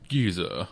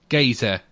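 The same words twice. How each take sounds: First: It is said in a posh upper-class English accent. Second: It is said in a Cockney-style London accent. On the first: The speaker calls it wrong. "That's like upper crust English" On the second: The speaker calls it right.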